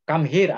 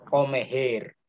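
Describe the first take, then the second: First: It is pronounced with normal English sounds. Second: It is pronounced letter by letter, Indonesian-style. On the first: "Misalkan come here" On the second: "Anda baca"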